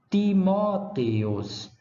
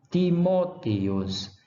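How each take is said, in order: Both takes have the same delivery.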